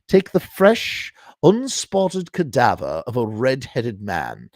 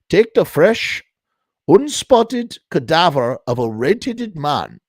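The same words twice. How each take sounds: First: It is read in an English accent. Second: It is read in a German accent.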